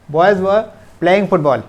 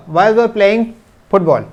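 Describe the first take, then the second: No difference in how they are said.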